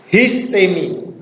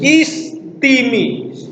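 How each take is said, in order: First: It starts with an h sound. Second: It starts with a vowel, without h. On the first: This is the reading from the time the texts were written. "Itu Erasmian" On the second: This is the modern reading. "Itu adalah cara baca modern"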